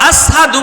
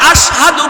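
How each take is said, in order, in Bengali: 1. শব্দটি 's' ধ্বনি দিয়ে বলা হয়। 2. শব্দটি 'sh' ধ্বনি দিয়ে বলা হয়। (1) "শিন উচ্চারণ হতো না, সিন উচ্চারণ হইতো" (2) "বেলাল আশহাদু বলতে পারতেন না"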